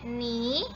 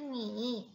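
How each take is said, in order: First: The pitch rises from mid to high. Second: The pitch dips low and then rises. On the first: It means mud. "Nada kedua ini bacanya ni" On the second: It means you. "Nada ketiga tuh ni"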